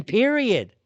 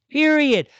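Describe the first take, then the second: First: Said in the usual way. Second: Period said louder and higher as a final word; emphatic repeat. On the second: Real, not acted. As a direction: slam down the second Period.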